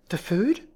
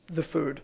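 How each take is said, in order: First: Puzzled question, pitched up with a rise. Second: Said in the usual way. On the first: A narrator's reading. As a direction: ask it back, voice lifting. Startled question about the order.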